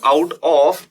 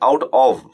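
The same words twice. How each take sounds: First: The word 'of' ends with an f sound. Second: The word 'of' has no f sound. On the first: The speaker calls it wrong. "this is not out of" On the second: The speaker calls it right. "there is no sound of f"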